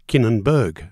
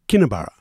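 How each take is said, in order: First: The name ends with a 'berg' sound. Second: The name ends with a 'borough' sound. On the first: The speaker calls it wrong. "some people pronounce it Kinnenberg because that's what it looks like" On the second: The speaker calls it right. "it's pronounced like the Scottish city, Edinburgh. So it's pronounced Kinnebarra"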